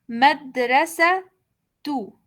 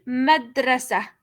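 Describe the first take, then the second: First: The word ends with a 'tu' sound. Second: The word ends with a plain 'a' sound. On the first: The ending carries the damma vowel. "cuando pongo la vocal damma y la pronunciación se cambia eh, por la ta" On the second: The ending carries the sukun, with no vowel. "tiene que tener al final la vocal sukun"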